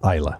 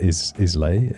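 First: The word ends with an 'uh' sound. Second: The word ends with an 'ay' sound. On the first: The speaker calls it right. "it's Isla" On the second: The speaker calls it wrong. "So it's not Islay"

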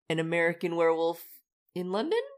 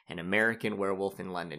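First: The title is said questioningly, as if uncertain. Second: The title is said confidently, as a flat statement. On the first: It is unclear whether this will happen. "it was more like ... kind of questioningly" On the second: The title simply states what the movie is. "instead of saying it confidently, like"

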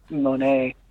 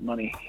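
First: The name ends with an 'ay' sound. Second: The name ends with an 'ee' sound. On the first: The speaker calls it wrong. "Not Monet" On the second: The speaker calls it right. "That's how you pronounce it"

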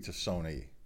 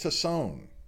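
First: The name is said with Italian-style sounds. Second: The name is said with plain English sounds.

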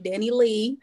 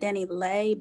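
First: The name ends with a 'lee' sound. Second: The name ends without a 'lee' sound. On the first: This is the speaker's own country way of saying it. "I guess I'm country. I say [name]" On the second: This is how the singer herself says it. "she pronounces it Danileigh"

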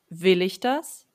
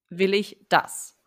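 First: The stress is on "will". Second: The stress is on "das".

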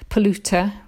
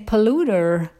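First: It is said in a British accent. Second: It is said in an American accent. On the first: "we say in Britain" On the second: "in America they say"

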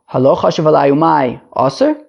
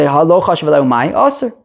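First: It is said with a questioning intonation. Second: It is said with a statement intonation. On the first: It asks whether he had the intention. "You don't have to read it as a question" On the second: It asserts that he had the intention. "And you can also say"

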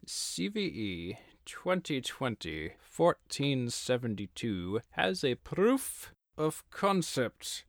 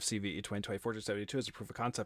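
First: It is spoken slowly in a theatrical voice. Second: It is spoken very fast, like an auctioneer. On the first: The speaker calls it right. "Let's say that 10 times slower" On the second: The speaker calls it wrong. "I can't do this auction voice"

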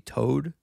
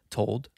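First: The L sound is dropped entirely. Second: The L sound is clearly pronounced. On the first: "doesn't like enunciating the L" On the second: "which to me sounds like I'm saying the L"

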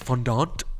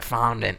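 First: The word is pronounced in a fancy, pretentious way. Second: The word is pronounced in a plain, casual way. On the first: "the pretentious fondant" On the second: "the casual like fondant"

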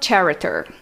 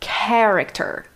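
First: The word begins with a ch sound. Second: The word begins with a k sound. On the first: The speaker calls it wrong. "eu não falo character" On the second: The speaker calls it right. "Eu tenho que falar character. K-K"

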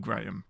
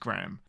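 First: The name is said with a British pronunciation. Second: The name is said with an American pronunciation. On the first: "That is the English way of saying Graham" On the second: "the way that the Americans say Graham is Graham"

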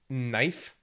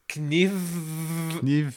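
First: The word begins with an n sound. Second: The word begins with a k sound.

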